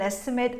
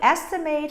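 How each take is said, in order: First: The last syllable is a short reduced schwa. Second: The last syllable is a full 'ate' sound. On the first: The word is used as a noun. "If it's a noun or an adjective, what we have is a short, reduced sound with the sound of schwa" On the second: The word is used as a verb. "If it's a verb, it's going to be long, ate"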